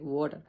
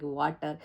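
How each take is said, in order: First: Water the native way, no stressed R. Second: Water with the R clearly sounded, Indian style; water in an Indian accent, the R rolled and stressed. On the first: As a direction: say water lightly, dropping the R. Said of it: "not that much prominent in native speakers language". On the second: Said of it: "we specially give stress to R when we speak". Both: Shown as a demonstration.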